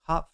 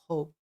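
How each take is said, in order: First: The vowel is short, like in cop. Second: The vowel is long, like in cope. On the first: "I've been saying cop" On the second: "or is it"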